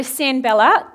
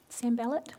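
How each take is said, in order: First: Said in the usual way. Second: "Sanballat" said softly with a rising end; quiet repeat. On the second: Real, not acted. Preacher introducing the opponent, quietly repeating "Sanballat".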